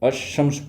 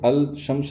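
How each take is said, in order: First: The L is dropped and the sh doubled. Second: The L sound is pronounced before shams. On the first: The speaker calls it right. "बल्कि अशम्स पढ़ा जाएगा" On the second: The speaker calls it wrong. "नहीं पढ़ा जाएगा"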